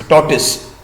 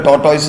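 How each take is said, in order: First: "tortoise" said TOR-tus, short unstressed end; the proper "tortoise", second syllable a light tus; correct pronunciation. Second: "tortoise" said tor-toys, like the coil brand; the shop way to say "tortoise", ending like toys; brand-name pronunciation. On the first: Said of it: "otherwise, it's tortoise". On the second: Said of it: "you call it a tortoise". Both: Shown as a demonstration.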